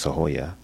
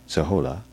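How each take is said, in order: First: The third syllable begins with a Y sound. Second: The third syllable begins with an L sound. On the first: The speaker calls it right. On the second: The speaker calls it wrong.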